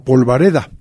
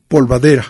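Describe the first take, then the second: First: The word ends with the sounds reda. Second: The word ends with the sounds dera. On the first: The speaker calls it right. "En lugar de polvareda" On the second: The speaker calls it wrong. "la palabra en su versión mal dicha"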